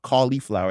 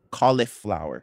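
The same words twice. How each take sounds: First: "cauliflower" as COLLY-flower; long "ee" before the F in "cauliflower"; cauli with long ee. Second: "cauliflower" as COLL-ih-flower; clipped middle vowel "ih" in "cauliflower"; cauli with short i. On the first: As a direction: say "cauliflower" with "ee" in the middle. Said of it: "apparently it's not cauliflower". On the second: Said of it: "it's not cauliflower, it's caul". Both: Shown as a demonstration.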